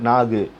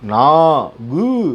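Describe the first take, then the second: First: The final ku is clipped short after a long vowel. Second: The final ku is said fully and separately. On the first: The speaker calls it right. "அந்த கூவை அந்த ஒரு மாத்திரையிலேருந்து கம்மியாக ஒலிக்கிறோம்" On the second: The speaker calls it wrong. "நான் கு அப்படின்னு சொல்கிறோமா? இல்லை"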